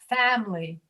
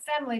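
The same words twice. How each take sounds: First: The first vowel is said with a dropped jaw. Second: The first vowel is said with a closed jaw. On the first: The speaker calls it right. "but family ... drop your jaw" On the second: The speaker calls it wrong. "Not family"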